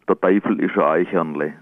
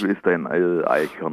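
First: It is spoken in regional dialect. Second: It is spoken in standard German. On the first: "ich sage es jetzt im Dialekt" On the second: "Ich kann es auch"

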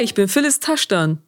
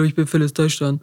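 First: It sounds bright, energetic and cheerful. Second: It sounds flat, low-energy and bad-tempered. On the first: The speaker calls it right. "Damit sich das gut anhört" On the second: The speaker calls it wrong. "es hört sich immer gleich so schlecht gelaunt an"

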